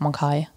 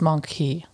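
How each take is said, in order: First: The last syllable sounds like 'kai'. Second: The last syllable sounds like 'key'. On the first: "if I would read it in a German novel, I would press go for Monkai" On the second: "But in English, it's just monkey"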